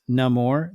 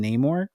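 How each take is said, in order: First: Namor as nuh-MOR, short unstressed first vowel; character's own pronunciation. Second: Namor as NAY-mor, long A up front; other characters' version. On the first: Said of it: "gives you the correct pronunciation". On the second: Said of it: "not any other version of it". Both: Shown as a demonstration.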